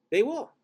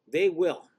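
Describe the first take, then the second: First: High, loud insistence; insistent. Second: Said in the usual way. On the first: Real, not acted. Vlogger insisting viewers will rewatch, mock emphatic.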